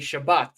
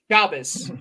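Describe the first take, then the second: First: The word ends with a 't' sound. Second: The word ends with an 's' sound. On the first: This is how other Hebrew speakers say it. "people who know Hebrew and speak it differently say Shabbat"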